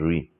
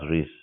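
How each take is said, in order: First: The final consonant is left silent. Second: The final consonant is pronounced. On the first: The speaker calls it right. "you pronounce it as re. You remove the last consonant" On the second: The speaker calls it wrong. "you don't pronounce it as rice"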